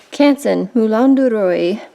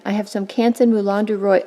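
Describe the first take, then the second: First: Paper name in a showy French accent; fancy French accent. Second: Said in the usual way. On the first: Shown as a demonstration. Naming French paper to feel better, fancy French accent. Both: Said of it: "say that with a fancy accent".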